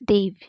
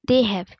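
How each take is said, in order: First: The words are joined into one short syllable. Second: Both words are said separately in full.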